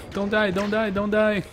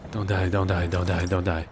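First: High, loud desperate plea; panicked pleading. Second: Said in the usual way. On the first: Real, not acted. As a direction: scream it in panic.

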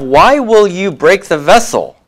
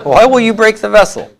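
First: The sentence Why will you break the vessel? read out a touch higher; reading the exercise sentence a little higher. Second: Why will you break the vessel? asked high, like a real question; mock asking. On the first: Shown as a demonstration. Teacher reading exercise eight aloud, a bit higher. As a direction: present the exercise line brightly. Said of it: "Number eight, we have". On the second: Teacher acting out the question, voiced much higher. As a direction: ask it as if scolding someone. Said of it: "sounds like a very typical thing to ask".

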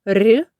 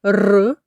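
First: Palatalized "р"; soft consonant. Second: Hard trilled "р"; hard consonant. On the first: Teacher explaining the sound scheme, soft "р". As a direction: soften "р" with the tongue raised. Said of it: "а м'який звук". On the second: Teacher explaining the sound scheme, hard "р". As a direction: roll "р" firmly, not palatalized. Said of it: "Твердий звук". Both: Shown as a demonstration.

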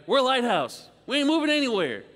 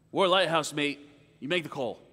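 First: Higher and louder, "We're" hammered down; emphatic retort. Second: Said in the usual way. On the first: Retold or imitated. Lighthouse keeper firing back at the captain, loud and emphatic. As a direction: plant your feet and announce it won't budge.

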